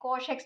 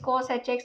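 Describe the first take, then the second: First: It is said as a single syllable, 'cosh'. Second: It is said as 'cos', then the letter h. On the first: "कॉश x भी बोलते हैं" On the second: "अलग अलग तरीके से pronounce होते हैं"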